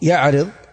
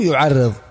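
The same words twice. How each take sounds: First: It starts with 'ya' and has a single r. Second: It starts with 'yu' and has a doubled r. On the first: "بفتح الياء وكسر الراء" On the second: "بضم الياء وتشديد الراء"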